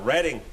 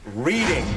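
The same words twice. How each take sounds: First: Reading is said the way the town says it. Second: Reading is said like the verb for reading books.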